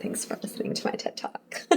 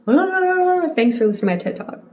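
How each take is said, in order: First: Soft, breathless throwaway whisper; whispered sign-off. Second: High, fast mocking blah-blah voice; mock rant voice. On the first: Real, not acted. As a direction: toss it off under your breath. Sign-off quip after the rant. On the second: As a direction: squeak it out fast, teasing yourself. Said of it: "I was just like".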